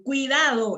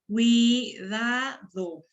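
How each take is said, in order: First: Said in the usual way. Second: Cuidado very slowly as cui, da, do; syllable by syllable. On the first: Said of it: "la sílaba cuidado". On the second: Shown as a demonstration. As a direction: pull cuidado apart into three long, separate syllables. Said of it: "Esta palabra tiene puras sílabas abiertas".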